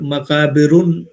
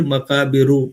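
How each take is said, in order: First: The word ends in -un with a final n. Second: The word ends in a short -u, no n. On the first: The speaker calls it wrong. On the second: The speaker calls it right.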